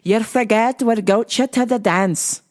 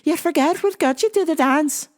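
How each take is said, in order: First: It is spoken in a Scottish accent. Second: It is spoken in an Irish accent. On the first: The speaker calls it wrong. "that's my Scottish accent" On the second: The speaker calls it right. "Where's my Irish accent?"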